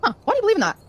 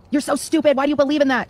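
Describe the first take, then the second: First: Curious gentle demo. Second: Contemptuous demo. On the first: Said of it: "compared to saying". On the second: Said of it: "if you say". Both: Shown as a demonstration.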